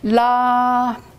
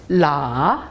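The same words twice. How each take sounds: First: The pitch stays high and level. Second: The pitch dips low, then rises again. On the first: "premier ton plat" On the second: "Troisième ton"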